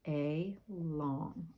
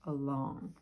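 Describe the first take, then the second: First: The word is split into two separate parts. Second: The word is said smoothly as one unit.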